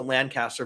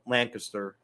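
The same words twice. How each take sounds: First: Lancaster said LAN-cast-er, with a full "cast"; outsiders' pronunciation. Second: Lancaster said LANK-uh-ster, middle syllable reduced; locals' pronunciation. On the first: Host showing how outsiders pronounce Lancaster, LAN-cast-er. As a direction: give Lancaster a clear, unreduced middle syllable. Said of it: "we pronounce it Lancaster". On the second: Host showing how locals say Lancaster, LANK-uh-ster. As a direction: squeeze Lancaster into LANK-iss-ter, local style. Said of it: "the locals call it Lancaster". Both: Shown as a demonstration.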